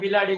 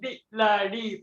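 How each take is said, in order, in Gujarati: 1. ઉચ્ચારણો એકબીજામાં ભળીને એક સરળ શબ્દ બને છે. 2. દરેક ઉચ્ચારણ અલગથી, સ્પષ્ટ વિરામ સાથે બોલાય છે. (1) "આપણે એવી રીતે બિલાડી બિલાડી બોલીએ" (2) "અમારા બી લા ડી એવી રીતે શ્રુત કરાવતા"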